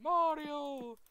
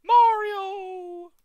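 First: High, sweet princess calling Mario; cartoon princess. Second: Very high, loud princess cry; cartoon princess. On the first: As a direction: call out like Princess Peach. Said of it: "do your best Princess Peach". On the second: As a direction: shriek his name like Princess Peach. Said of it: "do your best Princess Peach impression".

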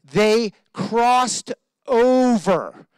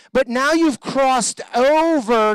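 First: They crossed over, drawn out very slowly; slow, weighted, each word of "They crossed over" stretched; stress on crossed over. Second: "you've crossed over" slow and weighted; louder, slower "now you've crossed over"; emphatic crossed over. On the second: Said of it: "See, you've been through something". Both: Shown as a demonstration.

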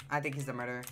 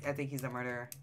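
Both takes have the same delivery.

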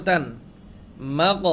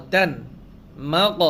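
No difference in how they are said.

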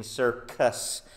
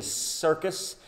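First: "circus" split as cir-CUS, second C a hard K. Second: "circus" with its first C hissed as S; soft C in circus. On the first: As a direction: lean on the K sound in "circus". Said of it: "it's the second C in". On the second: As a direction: lean on the opening S sound of "circus". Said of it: "like the first C in". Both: Shown as a demonstration.

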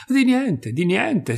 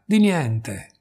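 First: Urgent reassurance rising to a cry; pressing insistence. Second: Said in the usual way. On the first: Acted. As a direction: Di niente pushed out much higher and louder. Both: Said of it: "incalzò la madre".

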